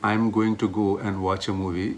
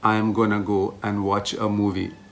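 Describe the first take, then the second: First: The words 'going to' are said in full. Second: The words 'going to' are reduced to 'gonna'. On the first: "Instead of saying" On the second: "it's a fast English native word"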